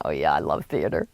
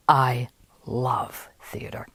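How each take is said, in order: First: Low, softer play-along reply; knowing play-along. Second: Slow, soft, whispered rapture; smitten, breathed reply. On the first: Narrator answering the con man about theater, low knowing agreement. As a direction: agree casually, pitched well down. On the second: Woman answering the playwright about theater, slow whispered rapture. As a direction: breathe each word slowly, imitating a smitten listener. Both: Retold or imitated.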